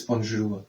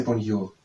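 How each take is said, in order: First: "bonjour" with a French ZH for the J; correct pronunciation. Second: "bonjour" with the J as a Y, "bon-yoor"; own pronunciation. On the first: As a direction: say "bonjour" as "bon-zhoor". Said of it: "but it is bonjour". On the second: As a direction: say "bonjour" softening J into an English Y sound. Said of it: "I would say bonjour". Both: Shown as a demonstration.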